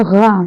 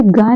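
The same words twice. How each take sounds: First: गा begun with a gargled voiced gh; throaty gh. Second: Said in the usual way. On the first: Shown as a demonstration. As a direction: say गा with buzzing friction at the back of the throat. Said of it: "अब इसका उच्चारण हो गया गा". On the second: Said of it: "तो अब ये गा नहीं हुआ".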